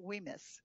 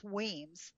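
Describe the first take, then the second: First: "Wemyss" said in two syllables; the wrong, as-spelled "Wemyss"; mispronounced Wemyss. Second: "Weems" as one long syllable; "Weems" rhyming with seems, drawn out; correct Weems. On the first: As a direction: say "Wemyss" as WEE-miss, sounding the Y. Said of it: "I was pronouncing it". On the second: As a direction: say "Weems" slowly with the Y silent. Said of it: "The Y is not pronounced". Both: Shown as a demonstration.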